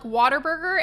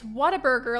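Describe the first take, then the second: First: The word has an R sound after water. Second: The word has no R sound after what-a. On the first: The speaker calls it wrong. "A lot of people also pronounce it like Waterburger" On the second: The speaker calls it right. "there's no R in it. It's Whataburger"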